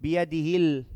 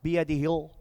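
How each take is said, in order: First: Biyadihil with a clean final L, tongue inside; correct lam. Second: Biyadihil with a loose, dark final L; mispronounced lam. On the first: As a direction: hold the L of biyadihil against teeth and gum. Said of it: "Keep the tongue inside the mouth". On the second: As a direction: let the tongue stray on the end of biyadihil. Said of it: "tongue can't come out of the mouth". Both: Shown as a demonstration.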